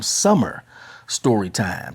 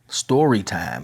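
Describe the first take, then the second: First: "summer" lifted and set apart, then "story time" drops; stress on summer. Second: Said in the usual way. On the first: Shown as a demonstration. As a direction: punch "summer" to set it against any old story time. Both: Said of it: "not just any old story time".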